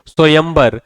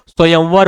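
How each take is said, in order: First: स्वयंवर said "swayambar", with b; wrong "b" form. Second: स्वयंवर said "swayamvar", with v; correct "v" form. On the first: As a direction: close the lips for a b in स्वयंवर. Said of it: "बा लिखा है, इसलिए गलत है". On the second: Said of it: "स्वयंवर होता है". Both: Shown as a demonstration.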